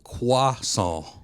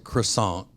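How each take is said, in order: First: It is said with a French pronunciation. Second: It is said with an American pronunciation. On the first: "The French pronounce it croissant" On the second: "we pronounce it croissant"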